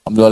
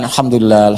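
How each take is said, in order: First: It is said quickly and mechanically. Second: It is said slowly and calmly.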